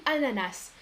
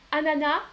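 First: "ananas" ending in an audible "s" hiss; pronounced final S. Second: "ananas" ending on an open "a" sound, S silent; silent final S. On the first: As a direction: say "ananas" with the last S sounded. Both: Shown as a demonstration. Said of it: "on prononce le S".

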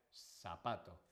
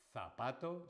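First: "zapato" opened with S instead of th, like sapato; seseo. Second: "zapato" with a clear, held th at the start; Castilian Z. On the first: Teacher contrasting the seseo version, "zapato" said with initial S. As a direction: swap the th of "zapato" for a clear S. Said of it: "utiliza el seseo, sería zapato". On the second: Teacher showing what it wouldn't be, "zapato" with Castilian th. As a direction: stress the th sound opening "zapato". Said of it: "No sería". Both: Shown as a demonstration.

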